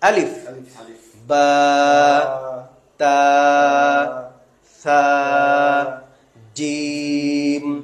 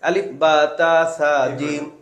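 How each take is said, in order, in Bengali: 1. প্রতিটি অক্ষরের নাম থামা দিয়ে আলাদা করা হয়। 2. অক্ষরের নামগুলো থামা ছাড়াই একসাথে জুড়ে বলা হয়। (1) "দম ছেড়ে ছেড়ে, পৃথক পৃথক।" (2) "না এভাবে না।"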